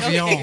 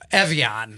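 First: The name is said in a French accent. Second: The name is said in an American accent. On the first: This is how it was said in earlier years. "pronouncing it with my French accent" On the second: This is how people say it now. "they're calling it now"

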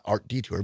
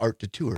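First: It is said plainly, like the word detour. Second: It is said in a fancier-sounding way. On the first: The speaker calls it wrong. "Not Art Detour" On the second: The speaker calls it right. "but Art de Tour, because it sounds fancier"

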